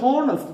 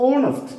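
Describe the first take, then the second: First: "honest" with the h sounded, ho-nest; "honest" with a spoken h, the wrong way. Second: "honest" said as onest, with no h; "honest" said without h, like onest; silent h. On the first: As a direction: voice the h in "honest" as the mistake. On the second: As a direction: drop the h in "honest" for the correct model. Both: Shown as a demonstration. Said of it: "H is silent here".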